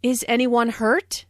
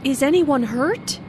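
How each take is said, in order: First: Hurt lifted up at the end; rising yes-no question. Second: Anxious, rising question; worried question. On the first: Shown as a demonstration. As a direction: let the voice rise on hurt. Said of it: "the intonation rises at the end". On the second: Acted. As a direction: ask it with concern. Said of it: "asked in a worried way".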